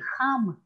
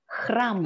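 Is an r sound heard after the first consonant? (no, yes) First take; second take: no; yes. First: The word is said without the r sound. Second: The word is said with the r sound. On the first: The speaker calls it wrong. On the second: The speaker calls it right.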